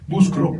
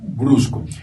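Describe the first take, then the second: First: The r follows the c. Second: The r follows the b. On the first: The speaker calls it wrong. "buscro en lugar de brusco" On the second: The speaker calls it right. "en lugar de brusco"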